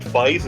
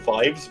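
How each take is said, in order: First: It does not sound like the plural of five. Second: It sounds like the plural of five. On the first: This is the usual pronunciation. "It's usually pronounced" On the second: This matches how the name is written. "it's technically written five five five, so it is meant to be fives"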